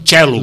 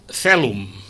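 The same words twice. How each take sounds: First: It is said in the Italian Latin pronunciation. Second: It is said in the Castilian Latin pronunciation. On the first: "Els italians diuen celum" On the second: "Els castellans diuen celum"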